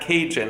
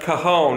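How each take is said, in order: First: The word is said like 'Cajun'. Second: The word is said as 'ca-hone'. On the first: The speaker calls it wrong. "and not Cajun, as I was pronouncing it earlier" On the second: The speaker calls it right. "is pronounced cajon"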